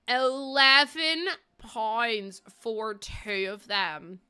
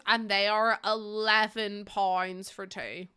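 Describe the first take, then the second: First: ELEVEN pounds for two, dragged out very slowly with eleven leaned on; incredulous stress. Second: Said in the usual way. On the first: Real, not acted. Repeating the price of chewed dummies, outraged stress. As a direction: stretch each word in disbelief. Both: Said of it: "Do you understand the anger".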